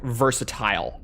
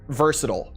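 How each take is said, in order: First: The middle T is pronounced crisply and clearly. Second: The middle T is softened, not crisply released. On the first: This is easier to understand for non-native listeners. The speaker calls it right. "instead of like versatile" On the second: This is the everyday American way of saying it. The speaker calls it wrong. "we say like versatile"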